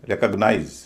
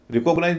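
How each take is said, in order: First: रिकॉग्नाइज as REK-uhg-nize; "re" not "ree". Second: रिकॉग्नाइज as ri-KOG-nize; wrong second-syllable stress. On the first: Teacher modelling the right form, रिकॉग्नाइज as REK-uhg-nize. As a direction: open रिकॉग्नाइज with stressed "rek", weak middle. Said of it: "री ना होके रे हो जाएगा". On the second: Teacher showing the mistake, रिकॉग्नाइज as ri-KOG-nize. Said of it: "रिकॉग्नाइज नहीं बोलेंगे". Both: Shown as a demonstration.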